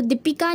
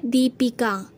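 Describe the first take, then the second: First: दीपिका with short first i, "di-pika"; wrong form. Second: दीपिका with long first ee, "dee-pika"; correct form. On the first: Teacher rejecting the wrong word, दीपिका with short di. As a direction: clip the 'di' in दीपिका. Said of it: "नहीं होता". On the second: Teacher giving the correct word, दीपिका with long dee. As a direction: stretch the 'dee' in दीपिका. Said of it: "होता है". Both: Shown as a demonstration.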